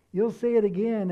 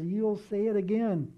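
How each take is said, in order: First: Louder second time, pressing the point home; preacher driving the promise home; emphatic repeat. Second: Said in the usual way. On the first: Acted. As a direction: punch it harder the second time.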